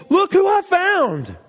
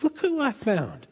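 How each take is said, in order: First: Much higher, slow, loud proud call; Jesus announcing his find to everyone; joyful announcement. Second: Softer, slow, hushed and loving; Jesus speaking tenderly about you. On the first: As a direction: show off the found sheep with delight. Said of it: "telling other people". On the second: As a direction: say it gently, as if to the one found. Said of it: "Jesus feels that way about you". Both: Retold or imitated.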